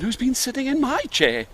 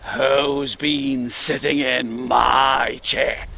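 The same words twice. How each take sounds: First: The voice is kind and polite. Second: The voice is deep and gruff. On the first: "in a kind, polite voice" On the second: "in his deep gruff voice"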